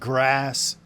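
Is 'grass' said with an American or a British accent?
American. The vowel is short, as in 'cat'. The speaker is trying to fit in locally. "I quickly started saying grass"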